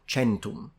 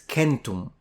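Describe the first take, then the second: First: The first sound is a soft consonant. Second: The first sound is a hard K. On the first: The speaker calls it wrong. "not centum" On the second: The speaker calls it right. "It's centum"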